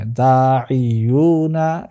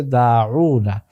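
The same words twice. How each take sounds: First: দাইয়ুনা slowly, as daa-i-yuu-na; drawn-out four-syllable দাইয়ুনা; uncontracted pronunciation. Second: দাউনা as daa-uu-na, middle i dropped; three-syllable দাউনা, no i in the middle; contracted pronunciation. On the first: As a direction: model দাইয়ুনা keeping the middle i. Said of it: "মাঝখানে যে একটা জেরের উচ্চারণ". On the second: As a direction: model the shortened দাউনা with long vowels. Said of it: "এটা উচ্চারণটা হয়ে যাচ্ছে". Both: Shown as a demonstration.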